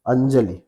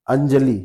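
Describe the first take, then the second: First: अंजलि with a short final इ; correct short vowel. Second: अंजलि with a long final ई; wrong long vowel. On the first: Teacher answering what is correct, pronunciation demo. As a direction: keep the last i of अंजलि short. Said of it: "सही इसका क्या होगा?". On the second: Teacher showing the wrong form, mispronunciation demo. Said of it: "अंजलि सही नहीं होता है". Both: Shown as a demonstration.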